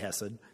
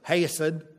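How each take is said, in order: First: It starts with a plain, soft sound. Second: It is said with a drawn-out Southern accent. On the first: "you can just say chesed" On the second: "like my professor, ... That would be the southern way"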